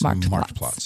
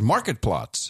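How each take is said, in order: First: The first word has one syllable. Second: The first word has two syllables. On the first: The speaker calls it right. "But it's Marked Plots" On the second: The speaker calls it wrong. "Everyone else says Market Plots"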